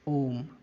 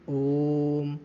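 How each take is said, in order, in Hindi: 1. स्वर को सामान्य, छोटे समय तक रखा जाता है। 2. स्वर को लंबे समय तक खींचा जाता है। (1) "अगर तीन का अंक ना बना होता हम पढ़ते इसे ओम ओम" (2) "उच्चारण में जो समय लग रहा है उसे बढ़ाएंगे"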